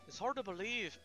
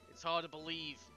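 First: It is read in a put-on Scottish accent. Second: It is read in the speaker's ordinary accent.

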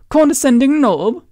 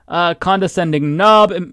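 First: It is said in a put-on British accent. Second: It is said in the speaker's ordinary accent.

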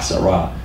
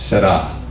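First: The R is a hard American R. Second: The R is soft or rolled. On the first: This is the Americanized way of saying it. The speaker calls it wrong. "We would say Que Sera Sera" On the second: This is the way an Italian says it. The speaker calls it right. "An Italian would say, no, it's Sera"

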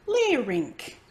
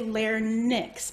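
First: The middle sounds like 'rink'. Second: The middle does not sound like 'rink'. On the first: The speaker calls it right. "think about ice rink" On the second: The speaker calls it wrong. "Sometimes I hear folks say larynx"

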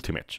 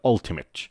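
First: The word begins with a 'yoo' sound. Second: The word begins with an 'uh' sound. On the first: The speaker calls it wrong. "با تلفظ یو شروع میکنن" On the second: The speaker calls it right. "یو میشه آ، تو اینجا میشه آ، پس میشه"

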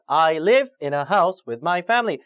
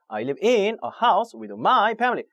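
First: The stress falls on the content words. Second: The stress falls on the function words. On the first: The speaker calls it right. "이렇게 자꾸 연습을 하셔야 돼요" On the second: The speaker calls it wrong. "거꾸로"

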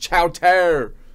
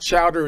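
First: The middle consonant sounds like a t. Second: The middle consonant sounds like a d. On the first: The speaker calls it right. "it's chowter" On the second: The speaker calls it wrong. "The proper pronunciation is not chowder"

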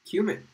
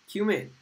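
Both takes have the same delivery.

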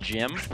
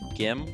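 First: The word begins with a soft j sound. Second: The word begins with a hard g sound. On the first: "I've always pronounced it Jim" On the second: "some people would pronounce it Gim"

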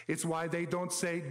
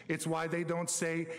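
No difference in how they are said.

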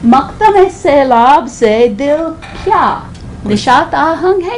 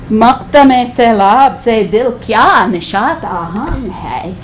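First: It is said as a genuine yes-no question. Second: It is said with a scornful, sarcastic tone. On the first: It asks whether the heart is joyful or not. "Yes or no question" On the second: The heart is hardly joyful at all. "Another way. Thore hi nishata hung hai"

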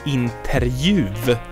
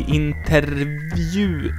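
First: The R glides straight into a J sound. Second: The R is followed by a V sound. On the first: It is easier for Swedes to say. The speaker calls it wrong. "a lot of people pronounce this like interjuv" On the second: It is harder for Swedes to say. The speaker calls it right. "Interview is hard"

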